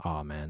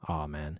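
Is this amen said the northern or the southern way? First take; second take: northern; northern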